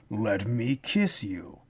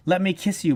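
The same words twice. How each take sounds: First: Much lower, slow and soft, deadpan; the demon's line read low, slow and soft; flat, weird delivery. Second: Said in the usual way. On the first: Retold or imitated. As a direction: drop it low and drag it out, oddly flat. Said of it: "it was just so weird". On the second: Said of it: "a certain charisma that some actors can give".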